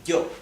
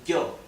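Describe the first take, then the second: First: It starts with a tense, buzzy y sound. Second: It starts with a tense, buzzy y sound.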